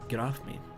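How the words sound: It is mumbled, the tongue barely moving.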